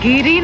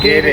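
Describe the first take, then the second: First: The ending is pronounced like giri. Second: The ending is pronounced like gere. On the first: The speaker calls it wrong. "गिरी नहीं" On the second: The speaker calls it right.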